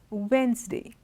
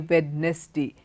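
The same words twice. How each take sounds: First: The D sound is silent. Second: The D sound is pronounced. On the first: The speaker calls it right. "It's Wednesday. There's no D" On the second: The speaker calls it wrong. "How many of you say"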